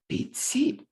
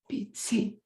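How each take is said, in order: First: The stress falls on the second word. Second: The same.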